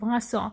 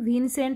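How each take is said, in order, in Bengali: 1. শেষটা একটি অনুনাসিক স্বরধ্বনি, t ছাড়া। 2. শেষটা উচ্চারণ হয় n, s, t ধ্বনি দিয়ে।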